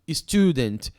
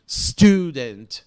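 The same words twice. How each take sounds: First: An extra i vowel comes before the S. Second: The word begins directly with the S sound. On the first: The speaker calls it wrong. "a gente tem mania de falar assim" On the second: The speaker calls it right. "Você tem que começar no som do S"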